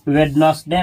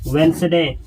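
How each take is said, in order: First: A d sound is said in the middle. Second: No d sound is said in the middle. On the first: The speaker calls it wrong. "वेडनसडे नहीं" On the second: The speaker calls it right. "इसमें डी नहीं बोला जाता है।"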